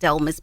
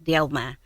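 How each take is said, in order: First: The name ends with an audible s sound. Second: The name ends without an s sound. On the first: It follows how the name is spelled. The speaker calls it wrong. "I pronounce it Delmas because that is the way that you see it on paper" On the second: It is the name's true pronunciation. The speaker calls it right. "but it's actually pronounced Delma"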